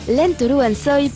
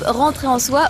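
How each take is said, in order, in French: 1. Le nom est prononcé à la japonaise. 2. Le nom est prononcé à la française.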